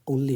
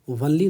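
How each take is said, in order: First: The word begins with an 'o' sound. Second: The word begins with a 'w' sound. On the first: The speaker calls it right. "ओनली होता है" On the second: The speaker calls it wrong. "इसका उच्चारण वनली नहीं होता है"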